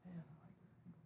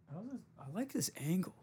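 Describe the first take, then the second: First: Whispered, pretend-admiring; whispering fake praise of the camera angle; mock whisper. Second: Higher, fake-admiring voice; sarcastically admiring his own camera angle; mock pleased. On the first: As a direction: breathe it like a secret compliment. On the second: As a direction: pretend to love the camera angle. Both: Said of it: "I don't at all, though".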